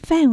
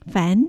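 First: The syllable is said with a falling tone. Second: The syllable is said with a rising tone. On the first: It is the speaker's family name. "第4 声ですね。煩は4 声、私の名字です。" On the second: It means noisy or troublesome. "2 声と発音しますと、"

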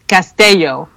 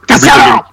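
First: The name is pronounced the Spanish way. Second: The name is pronounced the German way. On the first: "That's how you would pronounce it in Spanish" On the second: "In German, it would be Costello!"

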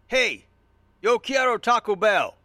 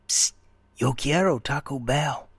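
First: It is said in an aggressive, forceful way. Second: It is said in a hushed, secretive way.

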